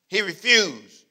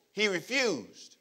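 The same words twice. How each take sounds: First: He refused, louder and firm; louder refusal. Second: He refused, slow and drawn out with the weight on he; slow emphatic refusal. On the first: Preacher repeating He refused to drive it home. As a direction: declare He refused with force. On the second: Preacher lingering on He refused. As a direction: savor He refused like a verdict. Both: Shown as a demonstration. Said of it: "this should be put in gold".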